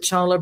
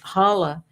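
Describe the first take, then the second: First: The word begins with a ch sound. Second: The word begins with an h sound. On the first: The speaker calls it wrong. "everyone calls it challah bread" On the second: The speaker calls it right. "you don't pronounce the C"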